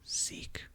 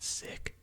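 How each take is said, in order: First: The vowel is long, as in seek. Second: The vowel is short, as in sick. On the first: "I've always heard seek" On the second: "apparently some people call it sick"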